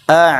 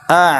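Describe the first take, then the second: The two takes are said the same way.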